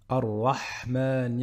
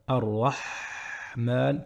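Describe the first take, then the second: First: The throat h sound is short and normal. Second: The throat h sound is drawn out longer.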